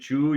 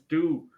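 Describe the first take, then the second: First: The word starts with a ch sound. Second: The word starts with a plain t sound. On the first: The speaker calls it wrong. "If you hear a Brazilian say chew" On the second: The speaker calls it right. "no, man, it's two"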